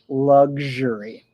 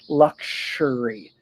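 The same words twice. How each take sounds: First: The x sounds relaxed, like g then zh. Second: The word is pronounced slowly and very precisely. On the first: "It's usually luxury" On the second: "if you want to try to pronounce it really clearly"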